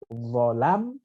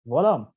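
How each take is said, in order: First: The second vowel is an open a sound. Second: The second vowel is a thick o sound.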